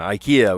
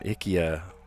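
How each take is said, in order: First: It is said in the usual American way. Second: It is said in the original Swedish way. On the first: This is how people say it in America. The speaker calls it wrong. "We all say IKEA" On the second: This is how it should be pronounced. The speaker calls it right. "it should be uh"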